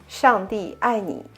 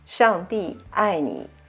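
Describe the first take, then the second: First: The phrase is said at natural conversational speed. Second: The phrase is said a little faster. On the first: "The normal speed would be" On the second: "Little bit faster"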